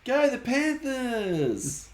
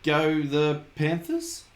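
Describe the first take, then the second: First: It is said with more enthusiasm and energy. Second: It is said flatly, without enthusiasm.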